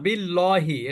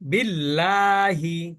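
First: The l sound is thick and heavy. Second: The l sound is thin and light. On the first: The speaker calls it wrong. "কেউ ভুল করে বলবেন না বিল্লহি, এটা কিন্তু হবে না" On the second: The speaker calls it right. "এবার এই লাইনে আমরা সব পাতলা"

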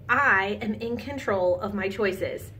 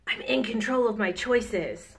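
First: It is said in an ordinary speaking voice. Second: It is said in a gruff pirate voice. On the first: "Say it after I say it" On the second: "Let's try it in a pirate voice"

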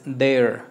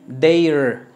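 First: The i-like vowel sound is very soft. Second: The i-like vowel sound is strong and clear. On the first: The speaker calls it right. "es their, lo que es la vocal I es muy suave" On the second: The speaker calls it wrong. "No es their"

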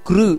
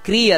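First: The syllable is said as kru. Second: The syllable is said as kri. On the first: The speaker calls it right. "ಕೃ ಅಂತ ಬರಬೇಕಲ್ಲಿ" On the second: The speaker calls it wrong. "ಹೊರತು ಕ್ರೀ ಅಲ್ಲ"

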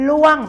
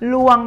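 First: The tone falls from high to low. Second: The tone is mid and level. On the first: "ล่วงเป็นเสียงโท" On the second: "ลวงเป็นเสียงสามัญค่ะ"

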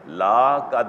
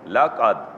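First: The vowel of the first word is drawn out long. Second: The vowel of the first word is kept short. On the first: The meaning changes. The speaker calls it wrong. "लाम लंबा करेंगे तो माना बदल जाएगा, ला कद नहीं" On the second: It affirms something without doubt. The speaker calls it right. "बल्कि ला कद"

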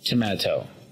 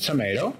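First: The word is said in a British accent. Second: The word is said in an American accent. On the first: "Y al estilo británico diríamos tomato" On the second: "En inglés americano decimos tomato"

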